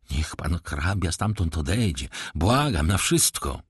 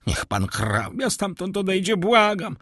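First: Hushed plea. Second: High, pleading cry; frightened plea. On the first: Repeated plea, now quiet. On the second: Terrified steward begs the count, high pleading cry. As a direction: beg him away in fear. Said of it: "zawołał". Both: A narrator's reading.

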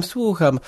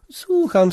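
First: Said in the usual way. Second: Impatient yes. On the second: A narrator's reading. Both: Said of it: "tak mówicie".

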